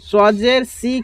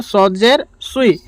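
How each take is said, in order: First: "সি" with a plain light s; wrong thin sad. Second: "সুই" with rounded swee glide; heavy s gliding through w in "সুই"; correct heavy sad. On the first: Teacher warning learners, "সি" mistakenly thin like sin. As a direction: say "সি" as thin see. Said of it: "কেউ বলবে না". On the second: Teacher correcting the error, "সুই" as rounded swee. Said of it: "সজের সি কেউ বলবে না". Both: Shown as a demonstration.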